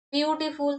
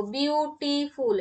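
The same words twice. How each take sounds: First: Said in the usual way. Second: beautiful broken into three syllables, bi-u-ti-ful; split into syllables. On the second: Shown as a demonstration. Teacher showing students the syllable count, beautiful split into syllables. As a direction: say beautiful syllable by syllable, spacing each part. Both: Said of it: "এটা তিন syllable বিশিষ্ট".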